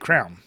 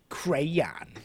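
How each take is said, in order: First: It is squeezed into one syllable, like crown. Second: It is fully pronounced with two syllables. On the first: This is the local Philadelphia way of saying it. "So in Philly, you just say crown" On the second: This is the careful, posh way of saying it. "hoity-toities, like Jim say, crayon"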